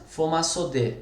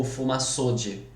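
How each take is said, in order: First: "Fomaçode" com a última sílaba tônica, "dê". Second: "fomaçode" com "ço" tônico, final fraco "dji"; tônica na penúltima. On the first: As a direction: diga "Fomaçode" como oxítona, terminando em "dê". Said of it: "Como que é a pronúncia?". ("Fomaçode" pronunciado fomaçodê) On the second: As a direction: diga "fomaçode" devagar, como paroxítona. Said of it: "na penúltima é enorme". ("fomaçode" pronunciado fomaçódji, mais lento) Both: Shown as a demonstration.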